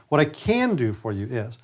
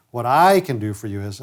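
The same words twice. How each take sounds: First: "can" stretched and lifted in pitch; slow down and lean on "can"; stress on CAN. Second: "I" hit hard at the front, "can" left unstressed; stress on I. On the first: Coach showing staff the positive phrase, stress on "can". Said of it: "emphasize the word can". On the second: Coach showing staff the wrong emphasis, stress on "I". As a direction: put the weight on "I", not "can". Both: Shown as a demonstration.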